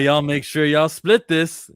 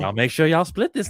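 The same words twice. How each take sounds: First: It is read in a normal speaking voice. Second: It is read in a put-on old-lady voice.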